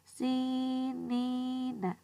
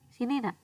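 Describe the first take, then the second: First: The middle vowel is held for two beats. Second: The middle vowel is short and clipped. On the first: The speaker calls it right. "Tapi dilamakan sebanyak dua harokat" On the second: The speaker calls it wrong.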